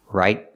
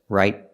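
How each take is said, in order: The two takes are said the same way.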